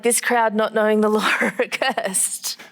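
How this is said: It is said with a chuckling, mocking tone. The writer is quietly laughing at their self-importance. "John's almost saying it like this"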